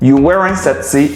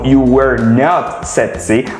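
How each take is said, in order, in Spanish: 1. La negación se contrae en una sola palabra. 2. La negación se dice como dos palabras completas. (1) "contracción maravillosa que se llama wasn't y weren't" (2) "Si es con el were"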